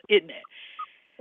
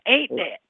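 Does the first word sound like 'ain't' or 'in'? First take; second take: in; ain't. First: The first word is reduced to sound like 'in'. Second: The first word is pronounced as full 'ain't'. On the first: The speaker calls it right. "but it's in that. That's all it is" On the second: The speaker calls it wrong. "So you're saying ain't that"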